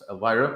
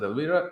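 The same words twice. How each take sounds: First: The name is said with English sounds. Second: The name is said with Spanish sounds. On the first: This is the name as an outsider reads it. "That's Elvira" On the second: This is how the locals say the name. "they pronounce it Elvira"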